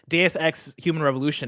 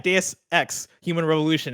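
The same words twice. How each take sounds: First: Deus and Ex run together without a break. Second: Deus and Ex are separated with extra force. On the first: It can be misheard as a different phrase. The speaker calls it wrong. "I couldn't figure out why they thought it was a weird name" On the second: The name cannot be misheard. The speaker calls it right. "I have to put the extra like umph into the in, uh, pronunciation"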